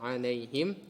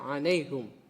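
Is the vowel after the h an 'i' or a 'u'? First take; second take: i; u. First: The vowel after the h is i. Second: The vowel after the h is u. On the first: This is the earlier reading tradition. "Yang sebelumnya kita baca alaihim" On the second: This is the current reading tradition. "Dan domah pada ha"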